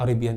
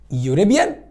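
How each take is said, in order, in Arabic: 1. تبدأ الكلمة بصوت حرف علة عادي. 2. تبدأ الكلمة بصوت y. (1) "لا يا مستر" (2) "يوريبيان ولا اريبيان؟ ... ده كلمه يوريبيان"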